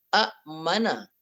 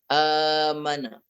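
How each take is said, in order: First: A glottal stop closes the first syllable. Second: The first vowel is long, with no glottal stop. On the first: This is the original form of the word. "asalnya a-mana" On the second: This is the lightened, changed form of the word. "dibadalkan hamzah itu kepada alif"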